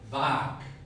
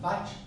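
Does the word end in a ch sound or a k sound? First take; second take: k; ch. First: The word ends with a k sound. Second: The word ends with a ch sound. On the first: The speaker calls it right. "porque la estás pronunciando solo" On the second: The speaker calls it wrong. "¿Y lo mencionan vach? No"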